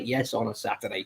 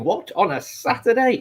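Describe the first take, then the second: First: Said in the usual way. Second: Pitched way up in mock disbelief; incredulous viewer. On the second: A viewer surprised the show is on a Saturday, high mock disbelief. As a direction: play the baffled viewer who can't believe it. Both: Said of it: "You're probably thinking".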